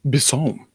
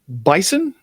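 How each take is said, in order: First: The surname is said with a French pronunciation. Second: The surname is said with an English pronunciation. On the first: This is the name's real pronunciation. The speaker calls it right. "her real pronunciation is Bisson. It's French" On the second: This is how people commonly say the name. The speaker calls it wrong. "You might know her as"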